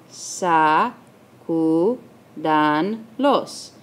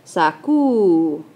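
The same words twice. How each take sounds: First: "sacudanlos" as sa, cu, dan, los with long pauses; very slow "sacudanlos", one syllable at a time; split into syllables. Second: "sacudanlos" with CU stretched and stressed; stress on counted syllable. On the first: Teacher dividing the word, "sacudanlos" in four separate syllables. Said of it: "ahora tenemos que dividir". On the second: Teacher marking the third syllable from the end, "sacudanlos" stressed on CU. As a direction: hold the CU of "sacudanlos", then finish the word. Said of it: "contar tres". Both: Shown as a demonstration.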